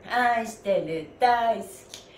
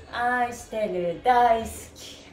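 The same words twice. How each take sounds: The two takes are said the same way.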